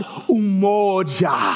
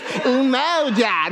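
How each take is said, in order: First: "umoja" slow, with a pure rounded O; correct African pronunciation. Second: "Umoja" in an exaggerated Michigander accent; mock American accent. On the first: Preacher correcting congregation, slow African pronunciation of "umoja". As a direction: stretch "umoja" as oo-MOH-jah, African style. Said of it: "that ain't the word that I'm teaching. It's called". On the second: Preacher mimicking congregation's attempt, mock American accent. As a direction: drawl "Umoja" wrongly, like a Midwestern American. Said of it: "Don't say it like you're American or Michiganders".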